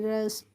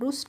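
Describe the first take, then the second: First: The vowel sounds like 'uh' as in 'cup'. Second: The vowel sounds like 'oo' as in 'put'. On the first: The speaker calls it right. "क्या पढ़ेंगे, रस्ट" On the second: The speaker calls it wrong. "आर U S T को हम रुस्ट नहीं पढ़ेंगे"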